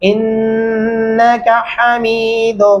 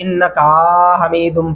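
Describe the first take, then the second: First: The 'ka' vowel is kept short. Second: The 'ka' vowel is drawn out long. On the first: The speaker calls it right. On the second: The speaker calls it wrong.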